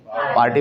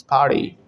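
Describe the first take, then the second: First: "पार्टी" with a hard t; sounded t. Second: "पार्टी" said as par-dee; t as light d. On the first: Teacher quotes usual form, "पार्टी" with hard t. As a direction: keep the t crisp in "पार्टी". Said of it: "पार्टी बोलते हैं ना". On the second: Teacher gives American form, "पार्टी" with d. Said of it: "टी में हल्का सा डी add". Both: Shown as a demonstration.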